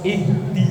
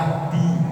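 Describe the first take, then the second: First: It starts with a clear 'i' vowel, standing alone. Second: It is joined to the previous word, without 'i'.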